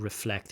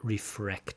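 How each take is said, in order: First: The consonant after the F is an L. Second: The consonant after the F is an R. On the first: The speaker calls it right. "this l, r" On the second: The speaker calls it wrong. "we get refrect"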